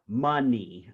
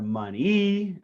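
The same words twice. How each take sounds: First: The stress is on the first syllable. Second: The stress is on the second syllable. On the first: The speaker calls it right. "the stress is on the first syllable" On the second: The speaker calls it wrong. "You would not say money or money"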